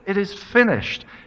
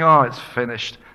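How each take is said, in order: First: It is a triumphant, joyful shout. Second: It is a resigned, defeated sigh.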